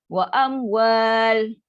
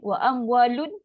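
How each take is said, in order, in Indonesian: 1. Kata itu berhenti di bunyi 'l'. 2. Kata itu berakhir dengan suku kata 'lun' yang dibunyikan. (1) "Kalau nak berhenti" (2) "Nun ni baris bawah baru boleh bunyi"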